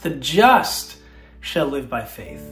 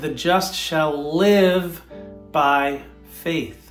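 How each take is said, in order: First: The word just is stressed. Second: The word live is stressed.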